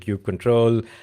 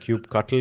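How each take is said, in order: First: The ending is said like 'control'. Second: The ending is said like 'cuttle'. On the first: "Is it Cube Control?" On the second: "Is it like Cube Cuttle? Because I've heard people say that"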